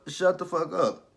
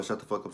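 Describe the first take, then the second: First: Louder, higher, slower "Shut the fuck up"; forceful quote. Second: Said in the usual way. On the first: Retold or imitated. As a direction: bark it slowly. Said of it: "Tommy basically told her". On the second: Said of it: "he told her".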